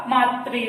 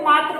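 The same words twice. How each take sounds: First: मातृ said as maatri, with the ri vowel sign sounded; correct pronunciation. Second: मात्र said as maatra, plain r with short a; common wrong way. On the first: Teacher giving students the correct pronunciation of मातृ as maatri. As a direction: voice मातृ carefully as maatri, lower and deliberate. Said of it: "इसका जो सही उच्चारण होगा वो क्या होगा". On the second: Teacher showing students the common mispronunciation of मात्र, maatra. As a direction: say मात्र the careless everyday way, maatra. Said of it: "हम एकदम से क्या बोल देते हैं". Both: Shown as a demonstration.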